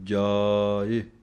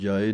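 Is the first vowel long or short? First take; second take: long; short. First: The first vowel is long and full. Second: The first vowel is short and clipped. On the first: The speaker calls it right. "ਜੱਜੇ ਕੰਨਾ ਬੋਲ ਕੇ ਜਾਏ, ਇਸ ਤਰ੍ਹਾਂ ਬੋਲਣਾ ਹੈ" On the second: The speaker calls it wrong. "ਇਹਨੂੰ ਜਾਏ ਨਹੀਂ ਕਹਿ ਦੇਣਾ"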